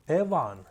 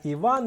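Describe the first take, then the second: First: The name starts with the Hutsul vowel. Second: The name starts with the standard vowel. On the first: This is the local mountain form. "на гуцульську манеру" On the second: This is the familiar form. "як ми звикли"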